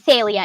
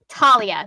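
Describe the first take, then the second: First: The name begins with a TH sound. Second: The name begins with a hard T sound. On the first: This is how the name was said in ancient Greek. "that would be a T H sound" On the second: This is how the author says the name. "Talia with the hard T instead of the T H"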